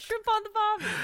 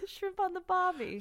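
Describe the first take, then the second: First: Quick mock Australian; tossed-off Aussie twang; a bit of a jokey Aussie accent. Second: Laughing mock Australian accent; a grudging Aussie line through laughter; reluctant redo of the Aussie accent. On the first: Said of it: "What the fuck did I just say that?". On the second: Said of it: "your Australian accent again?".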